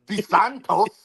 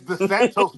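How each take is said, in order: First: The name is said with a Spanish accent. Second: The name is said with an American accent. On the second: The person has become Americanized.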